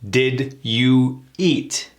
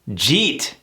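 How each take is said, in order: First: It is said as three separate full words. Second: It is blended into one short word. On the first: "This is the reduction to did you eat?" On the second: "get rid of those T's and reduce it to, believe it or not, jeet"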